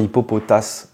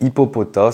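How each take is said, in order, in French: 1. Le mot se termine par un son S audible. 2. Le mot se termine par une voyelle, pas de son S. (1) "moi je disais toujours hippopotas aussi. Mais non" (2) "le S ne se prononce pas"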